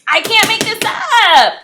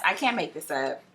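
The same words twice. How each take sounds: First: Much higher, louder and slower, exasperated; annoyed outburst. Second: Said in the usual way. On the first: Real, not acted. Reader venting to viewers, exasperated loud outburst. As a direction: shout it, fed up with the cards. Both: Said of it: "I'm very annoyed".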